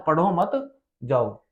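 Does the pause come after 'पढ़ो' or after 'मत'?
after मत. There is a pause after the word मत.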